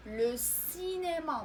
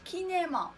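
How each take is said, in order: First: "لو سينما" slowly, with an s sound opening "سينما"; correct s pronunciation. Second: "كينما" with a hard k in place of s; wrong k pronunciation. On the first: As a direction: stretch "سينما" as si-né-ma, s not k. (نطق "لو سينما" بصوت السين ببطء) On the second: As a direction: show the mistake "كينما", opening ki instead of si. (نطق خاطئ "كينما" بالكاف عوض السين) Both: Shown as a demonstration. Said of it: "ما قلناش كينما".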